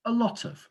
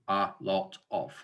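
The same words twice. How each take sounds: First: "a lot of" as one joined-up chunk, pitched high; linked chunk. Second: "a lot of" broken into three separate, full words. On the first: Teacher repeats the model for trainees, "a lot of" linked as one chunk. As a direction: run "a lot of" together, weak "a" and "of". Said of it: "focus on the whole chunk". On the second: Teacher showing what to avoid, "a lot of" chopped word by word. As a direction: separate "a", "lot", "of", giving each its own beat. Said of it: "rather than a lot of". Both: Shown as a demonstration.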